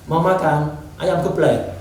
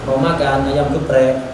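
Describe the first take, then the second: First: The r sound is replaced with an l. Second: The r sound is pronounced as a real r. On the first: It imitates a small child's speech. The speaker calls it wrong. "Jadi jangan gitu" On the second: It models the correct adult pronunciation. The speaker calls it right. "orang tua tetap ngomongnya yang benar"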